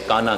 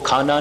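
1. ਪਹਿਲੇ ਵਿਅੰਜਨ ਵਿੱਚ ਸਾਹ ਦੀ ਫੂਕ ਨਹੀਂ ਹੈ। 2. ਪਹਿਲੇ ਵਿਅੰਜਨ ਵਿੱਚ ਸਾਹ ਦੀ ਫੂਕ ਹੈ। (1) "ਕਾਨਾ ਕਹਿੰਦੇ ਨੇ" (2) "ਉਹ ਖਾਨਾ ਨਹੀਂ ਕਹਿ ਸਕਦੇ"

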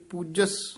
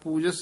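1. ਸ਼ਬਦ ਕੱਸ ਕੇ ਬੋਲਿਆ ਜਾਂਦਾ �है, ਵਿਅੰਜਨ ਰੋਕ ਕੇ। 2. ਸ਼ਬਦ ਢਿੱਲਾ ਬੋਲਿਆ ਜਾਂਦਾ ਹੈ, ਵਿਅੰਜਨ ਰੋਕੇ ਬਿਨਾਂ। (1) "ਕੱਸ ਕੇ ਬੋਲਣਾ" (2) "ਪੂਜਸ ਨਹੀਂ ਕਹਿਣਾ"

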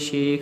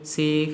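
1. ਸ਼ਬਦ ਦੀ ਸ਼ੁਰੂਆਤ sh ਦੀ ਆਵਾਜ਼ ਨਾਲ ਹੁੰਦੀ ਹੈ। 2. ਸ਼ਬਦ ਦੀ ਸ਼ੁਰੂਆਤ s ਦੀ ਆਵਾਜ਼ ਨਾਲ ਹੁੰਦੀ ਹੈ। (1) "ਕਈ ਸ਼ੇਖ ਕਹਿੰਦੇ ਹਨ ਜੀ" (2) "ਇਹਨੂੰ ਸੇਖ ਬੋਲਣਾ ਹੈ"

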